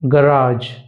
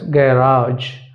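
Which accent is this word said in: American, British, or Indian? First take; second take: American; British. First: It is said in an American accent. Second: It is said in a British accent. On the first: "In American accent" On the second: "In British accent, ... The stretch on "a" is more"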